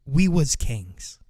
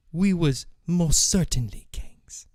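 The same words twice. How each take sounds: First: Said in the usual way. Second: Breathy hushed whisper of former glory. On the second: Acted. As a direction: whisper it like a secret. Whispered echo of the lament.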